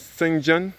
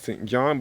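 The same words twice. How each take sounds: First: It is pronounced the way the surname is. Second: It is pronounced the way the parish is. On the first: The speaker calls it right. "it is supposed to be pronounced as Saint John" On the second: The speaker calls it wrong. "We might be referred to as Saint John"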